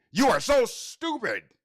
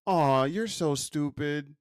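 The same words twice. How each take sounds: First: Sharp, higher scolding tone; harsh scolding. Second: Soft kind tone. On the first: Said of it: "But what if I said". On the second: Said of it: "I don't know if this is a good demonstration". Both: Shown as a demonstration.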